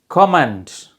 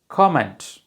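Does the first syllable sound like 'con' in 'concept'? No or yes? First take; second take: yes; yes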